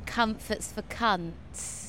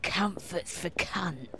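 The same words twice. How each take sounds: First: Quiet slow quote. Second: Low, soft and slow, lightly voiced old Soho man; quiet slow quote. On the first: Retold or imitated. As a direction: murmur it slowly like a motto. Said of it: "gave me the slogan". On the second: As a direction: murmur it like a weary motto. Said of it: "He's like".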